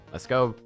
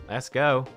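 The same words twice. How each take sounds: The two takes are said the same way.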